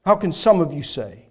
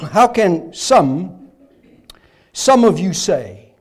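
First: Said in the usual way. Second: Slow, weighted "How can some, some of you say" with "some" leaned on hard; "some" stressed in a slow, deliberate question. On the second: Shown as a demonstration. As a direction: drag it out and land on "some" as the point. Stressing that only some doubt.

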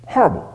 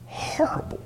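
First: Said in the usual way. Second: Soft breathy whisper of horrible; whispered aside. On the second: Acted. Preacher whispering to the men about careers.

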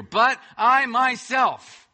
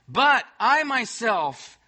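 First: "But I myself" slow, loud, every word hammered; emphatic BUT I MYSELF. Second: "But I myself" slow and loud, "But" hit hardest; emphatic BUT I MYSELF. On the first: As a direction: stamp each word of "But I myself" slowly and loudly. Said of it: "that's emphatic in the Hebrew". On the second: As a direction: drag out "But I myself" with a heavy stress on "But". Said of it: "It's like there's an exclamation point there". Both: Acted.

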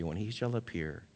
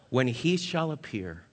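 First: Said in the usual way. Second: "When he shall appear" with the weight on "he"; slow stress on he. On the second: Shown as a demonstration. Pastor to congregation, slow stress on "he". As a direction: lean on "he", drawn out.

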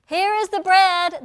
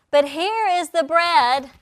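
First: "bread" punched higher and louder; louder, higher repeat. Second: "here" stretched out slowly and weighted; slow emphasis. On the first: Preacher repeating to the congregation, "bread" hit louder and higher. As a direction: repeat "here is the bread" rising with force. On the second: Preacher slowing down to stress "here" to his congregation. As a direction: lean on "here is the bread" slowly. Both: Acted.

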